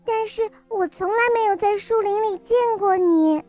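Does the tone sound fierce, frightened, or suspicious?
frightened. It is said in a frightened tone.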